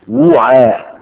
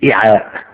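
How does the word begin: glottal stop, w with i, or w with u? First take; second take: w with u; glottal stop. First: It begins with w followed by a u vowel. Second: It begins with a glottal stop, not w. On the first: "بضم الواو" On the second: "وبالهمز"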